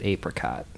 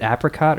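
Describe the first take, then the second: First: "apricot" with a long A, as in "ape". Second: "apricot" with a short A, as in "apple". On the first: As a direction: say "apricot" starting AY-pruh-cot. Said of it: "or is it apricot?". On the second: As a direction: say "apricot" starting AP-ruh-cot. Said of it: "Is it apricot or is it apricot?". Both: Shown as a demonstration.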